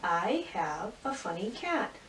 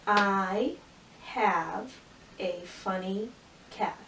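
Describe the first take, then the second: First: Said in the usual way. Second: Word by word. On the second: Shown as a demonstration. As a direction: pause after each word, like a beginning reader. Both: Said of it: "Let's go back and read that".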